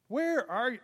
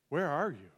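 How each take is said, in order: First: It sounds like a casual search for someone. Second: It sounds sorrowful and lamenting. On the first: The asker simply cannot find the person. The speaker calls it wrong. "It's not like this" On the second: The asker grieves over what the person has done. The speaker calls it right. "There's lamenting that has occurred in that question"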